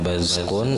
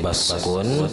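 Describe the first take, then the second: First: The middle consonant is a z. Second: The middle consonant is an emphatic s. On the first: "dan zai" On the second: "dibaca dengan shad"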